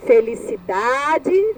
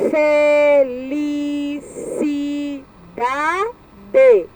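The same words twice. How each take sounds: First: Said in the usual way. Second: "Felicidade" stretched into fe, li, ci, da, de with breaks; "Felicidade" as five detached, drawn-out syllables. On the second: Shown as a demonstration. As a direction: sound out "Felicidade" very slowly in five beats. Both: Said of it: "separar a sílaba".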